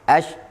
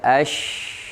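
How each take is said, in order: First: The 'sh' sound is short, not held. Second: The 'sh' sound is held long. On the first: The speaker calls it wrong. "Bukan ash" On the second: The speaker calls it right. "Kita harus baca ash"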